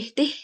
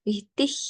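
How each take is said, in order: First: The word ends in a hard g sound. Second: The word ends in a soft h-like sound. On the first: The speaker calls it wrong. "Bukan wichtig" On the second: The speaker calls it right. "tapi wichtig agak agak halus"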